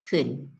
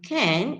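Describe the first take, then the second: First: It has a short, weak vowel. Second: It has a full, clear vowel. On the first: "it's been reduced to can" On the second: "from can"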